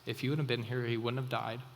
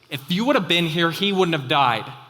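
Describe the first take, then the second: First: It sounds calm and peaceful. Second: It sounds upset and hurried.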